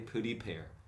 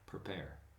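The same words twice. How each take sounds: First: The first syllable is said with a clear 'pree'. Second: The first syllable is reduced to a quick 'per'. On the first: The speaker calls it wrong. "they never say prepare" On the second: The speaker calls it right.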